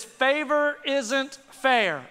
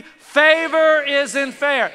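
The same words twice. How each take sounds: First: Each word stretched out slowly, favor isn't fair; slow emphatic phrase. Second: Slow, louder, rallying the crowd on "Favor isn't fair"; louder call-and-response. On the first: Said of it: "I've learned a phrase". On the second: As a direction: lead the congregation, big and slow. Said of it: "you can do better than that". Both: Shown as a demonstration.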